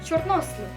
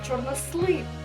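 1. Наголос падає на склад із 'о'. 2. Наголос падає на інший склад. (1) "Наголос ставиться на літеру О" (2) "Ми з вами не кажемо чорнослив"

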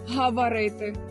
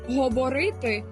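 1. Ненаголошені голосні вимовляються як а. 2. Ненаголошені голосні вимовляються як о. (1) "а не «гаварити»" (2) "У нас немає акання"

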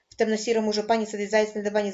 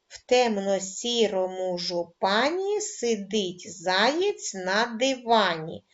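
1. Фраза вимовляється дуже швидко. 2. Фраза вимовляється повільнішим темпом. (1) "дуже швидко скажемо скоромовку" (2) "Починаємо читати скоромовку кожного разу, пришвидшуючи темп"

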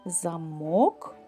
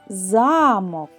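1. Наголошений другий склад. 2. Наголошений перший склад. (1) "В слові «замок» наголошеним є другий склад" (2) "Наголошений є перший склад"

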